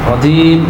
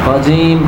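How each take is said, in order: Both takes have the same delivery.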